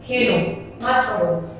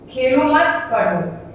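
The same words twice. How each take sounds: First: There is a pause after the first word. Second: There is a pause after the second word.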